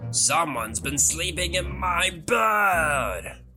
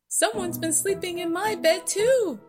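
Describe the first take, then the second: First: It is roared in a booming Daddy Bear voice. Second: It is growled in a Mommy Bear voice.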